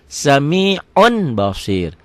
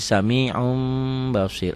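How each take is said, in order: First: SAMI'UN with a clear n, high, loud and slow; written form. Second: SAMI'UN as "sami'um", long held m; iklab reading. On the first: Teacher reads it as written, clear n. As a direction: stretch it but end on a firm N. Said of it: "itu dibacanya jadi". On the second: Teacher shows how it is read, n becomes m. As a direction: hum the M before BASIR. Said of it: "dibacanya jadi". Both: Shown as a demonstration.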